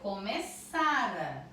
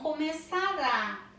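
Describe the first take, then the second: First: The stress falls on the middle syllable. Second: The stress falls on the last syllable. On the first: The action had already happened before another past event. "Aqui tá aqui o acento, não no rá" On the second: The action will happen in the future. "Se fosse com acento, seria futuro"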